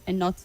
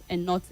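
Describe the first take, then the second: The two takes are said the same way.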